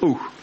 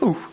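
First: The bays come more slowly, spaced further apart. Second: The bays come more quickly, closer together. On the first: The trail is still faint. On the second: The trail is fresher and the quarry closer.

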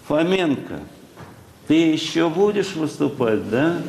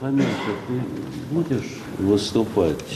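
First: It is said in a raised, squeaky pitch. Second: It is said in a normal speaking pitch.

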